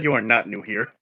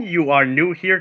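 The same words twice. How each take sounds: First: "not" set apart in "you are not new here"; stress on NOT. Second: "are" set apart in "you are new here"; stress on ARE. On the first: Player repeating what they heard, stressed "not" in "you are not new here". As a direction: lean on "not" to show what was heard. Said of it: "it sounded like you said you are not new here". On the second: Player checking what was said, stressed "are" in "you are new here". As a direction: lean on "are" as the correction. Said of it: "did you mean you are new here". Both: Real, not acted.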